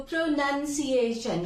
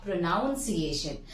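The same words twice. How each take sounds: First: Pronunciation slowly, as pro-NUN-see-ay-shun; short "uh" in the second syllable of pronunciation; correct "nun" pronunciation. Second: Pronunciation slowly, as pro-NOUN-see-ay-shun, lower; an "ow" in the second syllable of pronunciation; wrong "noun" pronunciation. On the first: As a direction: stretch out pronunciation with "nun" in the middle. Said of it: "the word turns into pronunciation". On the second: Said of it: "not pronunciation". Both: Shown as a demonstration.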